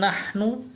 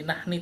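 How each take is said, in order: First: The word ends with a u vowel. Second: The word ends with an i vowel. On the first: The speaker calls it right. "begitu juga kami" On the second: The speaker calls it wrong. "jadi nahni, tidak"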